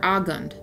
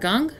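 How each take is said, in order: First: The name starts with an A vowel sound. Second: The name starts directly with a G sound.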